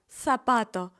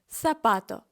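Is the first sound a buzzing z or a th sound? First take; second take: th sound; th sound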